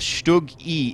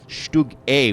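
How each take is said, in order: First: The letter sounds like English "ee". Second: The letter sounds like German "ay". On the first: "But I think I think Stug E is clear" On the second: "if we were going to go full German pronunciation"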